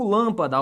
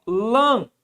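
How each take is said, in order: First: Said in the usual way. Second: "Lâmpada" broken into LÂM, pa, da with long pauses; syllable separation. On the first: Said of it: "vamos fazer a separação dessa palavra". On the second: Shown as a demonstration. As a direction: dictate "Lâmpada" one syllable at a time. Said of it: "Fica assim, ó". ("Lâmpada" sílaba por sílaba, com pausas longas)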